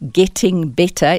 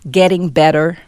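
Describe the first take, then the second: First: The middle T is a crisp T. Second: The middle T is tapped, almost like a D. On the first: "is how we would normally say it" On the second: "In the American accent, you would say"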